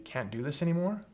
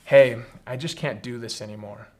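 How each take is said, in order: First: Anymore rising at the end, softly, as a question; mirroring question. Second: Said in the usual way. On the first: Shown as a demonstration. Leader mirroring a frustrated member, softly with a questioning rise. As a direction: echo "Can't do this anymore?" back softly with a rising tune on anymore. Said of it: "And you say". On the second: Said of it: "maybe say something like".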